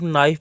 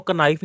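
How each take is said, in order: First: नाइफ said naif with no k sound; correct pronunciation. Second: कनाइफ with the k sounded, as ka-naif; wrong pronunciation. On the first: Teacher showing students the right way, नाइफ without the k. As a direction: drop the k, just नाइफ. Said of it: "सिर्फ नाइफ पढ़ा जाता है". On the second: Teacher showing students the wrong way, कनाइफ with k sounded. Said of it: "कनाइफ नहीं पढ़ा जाता". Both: Shown as a demonstration.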